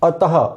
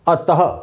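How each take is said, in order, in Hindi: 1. यह शब्द एक छोटे, श्वास-युक्त आधे 'ह' पर समाप्त होता है। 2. यह शब्द एक छोटे, श्वास-युक्त आधे 'ह' पर समाप्त होता है।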